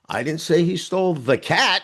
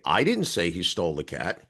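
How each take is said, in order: First: The stress falls on the word cat. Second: The stress falls on the word I. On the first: A different animal was taken. "He stole the dog" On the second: Someone else said it. "you did"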